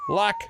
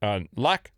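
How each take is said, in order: First: Luck? with a doubtful falling tone; questioning luck. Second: Luck? lifted on a questioning rise; rising question. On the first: Reading a listener's letter, a wry query. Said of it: "No, not luckily". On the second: Reading out a listener's story, querying the word. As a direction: ask luck? doubtfully, tone going up. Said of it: "No, not lucky". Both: Shown as a demonstration.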